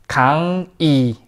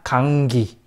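First: The syllables stay separate with no g sound. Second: A g sound links into the second syllable. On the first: The speaker calls it right. "sin nada de enlazar nada... como si estuviera pues separado" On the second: The speaker calls it wrong. "pronuncia en lugar de 강이, pronuncia 강기"

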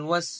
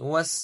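Both takes have the same delivery.

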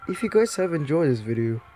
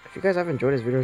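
First: It is said in a put-on Whis voice. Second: It is said in the speaker's normal voice.

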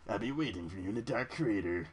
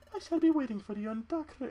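First: It is said in a different voice. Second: It is said in Darkrai's put-on voice.

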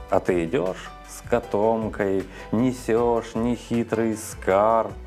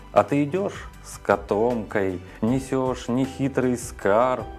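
Both takes have the same delivery.

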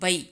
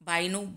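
First: The first vowel is a short 'a'. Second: The first vowel is a long 'aa'.

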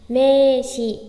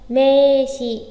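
The two takes are said the same way.

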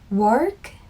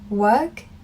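First: It is said in an American accent. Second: It is said in a British accent. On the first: "미국 발음은" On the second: "제가 어려워했던 영국 발음이 뭐냐면은"

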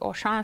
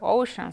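First: The name is pronounced the French way. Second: The name is pronounced the English way. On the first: The speaker calls it right. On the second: The speaker calls it wrong.

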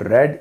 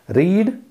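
First: The vowel is short, like 'red'. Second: The vowel is long, like 'reed'. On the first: It is the past form. "read is the past form" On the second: It is the present or basic form. "Read, basic form"

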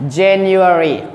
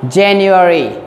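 Both takes have the same delivery.

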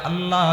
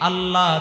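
The two takes are said the same way.

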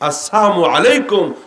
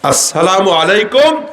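First: The greeting is said with sounds dropped. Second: The greeting is pronounced fully and carefully. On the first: Die quickly. The speaker calls it wrong. "আসসালামু আলাইকুম তাড়াতাড়ি মর" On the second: Peace be upon you. The speaker calls it right. "আসসালামু আলাইকুম তোমার প্রতি শান্তি"

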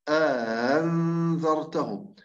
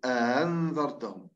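First: The opening vowel is lengthened by an inserted alif. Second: The opening vowel is short, with no inserted alif. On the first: "لكن الإمام البصري يدخل ألف فتقرأ" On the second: "لو فرضا هو لا يدخل ألف، سنقول على طول مباشرة"

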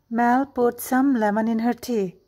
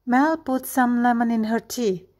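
Both takes have the same delivery.

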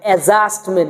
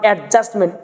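First: The d sound is dropped before the j. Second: A d sound is heard before the j. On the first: The speaker calls it right. "ডিটাকে বাদ দিয়ে পড়তে হবে" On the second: The speaker calls it wrong. "Not"

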